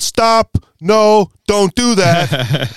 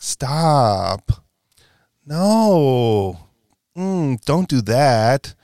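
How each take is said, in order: First: It is said in a flat, serious tone. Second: It is said in a playful, flirtatious tone.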